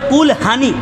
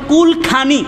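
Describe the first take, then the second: First: The second word starts with an h sound. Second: The second word starts with a kh sound. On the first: "তারা বলে কুল হানি" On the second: "যেমন কুল খানি"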